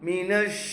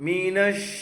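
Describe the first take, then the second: Both takes have the same delivery.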